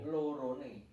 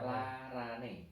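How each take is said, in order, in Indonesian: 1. Kata ini diucapkan dengan vokal 'o'. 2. Kata ini diucapkan dengan vokal 'a'. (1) "beda arti" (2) "Bener kan kalau larane?"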